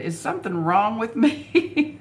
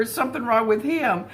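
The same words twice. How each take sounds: First: Lightly voiced worried young wife asking herself; plaintive quoted question. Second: Higher read of the same question, falling on him; lightly voiced young wife doubting her husband; quoted question. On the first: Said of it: "and she said". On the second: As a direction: ask it higher, the blame turned to him, tune dropping.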